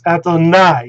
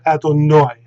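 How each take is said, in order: First: The final syllable is pronounced "eye". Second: The final syllable is pronounced "oy". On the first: "they will pronounce this" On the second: "and not"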